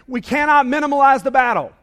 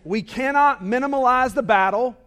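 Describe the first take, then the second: First: It is said with lively, wide-awake energy. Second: It is said with plain, low energy.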